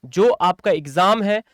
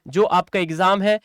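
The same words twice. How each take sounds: The two takes are said the same way.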